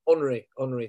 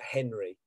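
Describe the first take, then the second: First: The name is said the French way. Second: The name is said the English way. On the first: The speaker calls it right. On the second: The speaker calls it wrong.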